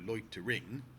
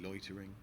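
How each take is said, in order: First: The last syllable is stressed. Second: The last syllable is swallowed and unstressed. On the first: The speaker calls it wrong. "loitering is not a word that you ever stress the last syllable of. You don't go" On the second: The speaker calls it right. "So you do kind of swallow that"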